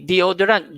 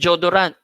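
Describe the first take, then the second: First: The word begins with a clear 'dee-o' sound. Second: The word begins with a 'jo' sound. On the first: The speaker calls it right. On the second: The speaker calls it wrong.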